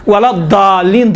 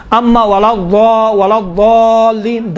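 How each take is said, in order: First: الضالین said with a thin, plain D; plain daal, wrong way. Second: الضالین with a thick, heavy ض, slowly drawn out; daal-like daad. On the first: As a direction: show the mistake, الضالین as "daalleen" with an ordinary D. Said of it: "ولا الضالین دال ہے". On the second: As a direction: show the correct الضالین, heavy D-like sound that is no plain daal. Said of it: "دال جیسا لگتا ہے، دال نہیں ہے". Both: Shown as a demonstration.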